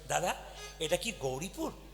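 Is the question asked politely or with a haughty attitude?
polite. It is asked in a plain, polite tone.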